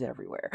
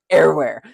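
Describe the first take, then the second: First: Said in the usual way. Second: EVERYWHERE squeezed to "err-where", punched loud; emphatic Southern pronunciation. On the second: Shown as a demonstration. Southerner joking about churches on every corner, loud emphatic "err-where" for EVERYWHERE. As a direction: hit EVERYWHERE hard, swallowing the V. Repeats it punched up after laughing.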